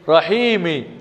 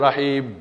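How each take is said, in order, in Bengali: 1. শব্দটি একটি হ্রস্ব 'i' স্বরধ্বনি দিয়ে শেষ হয়। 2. শব্দটি একটি অবিমিশ্র 'm' ধ্বনি দিয়ে শেষ হয়। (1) "মিম রসিকার মি" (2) "যখনই আপনি স্টপ করবেন তখন আপনাকে হস দিয়ে করতে হবে"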